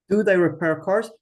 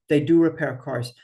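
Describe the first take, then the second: First: The question read with a rising tune. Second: The wrong answer read plainly. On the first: Teacher reads the question aloud for her class. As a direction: ask "Do they repair cars?" with a lift. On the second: Teacher reads the wrong answer aloud for her class. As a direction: answer with the unneeded "do". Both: Shown as a demonstration. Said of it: "you don't need the do".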